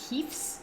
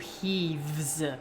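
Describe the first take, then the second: First: A voiceless f is followed by an s sound. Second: A voiced v is followed by a z sound. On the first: "you're ending with a voiceless sound, so you have to use the S sound" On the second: "the voiced v is determining why you're doing a z"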